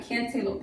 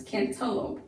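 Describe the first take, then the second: First: CANTALOUPE softly said can-TAY-lope; the mistaken CANTALOUPE, middle syllable rhyming with day; long A mispronunciation. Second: CANTALOUPE softly said CAN-tuh-lope; short middle vowel. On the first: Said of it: "that would be a long A". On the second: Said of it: "it's not cantaloupe, it's cantaloupe". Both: Shown as a demonstration.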